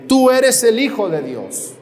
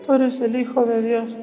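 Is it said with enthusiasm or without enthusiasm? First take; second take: with enthusiasm; without enthusiasm. First: It is said with strong enthusiasm. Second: It is said listlessly, without enthusiasm.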